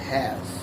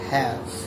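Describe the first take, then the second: First: The word ends cleanly on the final consonant. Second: The same.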